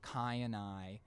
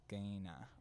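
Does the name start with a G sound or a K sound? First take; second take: K; G. First: It starts with a hard K sound. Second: It starts with a G-like sound. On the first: "instead of Kayanai" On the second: "it's Gaina"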